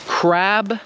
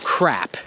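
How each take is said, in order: First: Crab ending on a clear voiced B; voiced final b. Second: Crap ending on a crisp voiceless P; voiceless final p. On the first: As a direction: close crab on a firm B. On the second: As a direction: pop the P at the end of crap. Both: Shown as a demonstration. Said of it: "Do you hear the difference".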